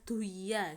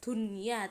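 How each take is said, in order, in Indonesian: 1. Bunyi n dihilangkan sama sekali. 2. Bunyi n terdengar jelas. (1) "tidak boleh duya seperti itu ya" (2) "harus dibacanya jelas ya"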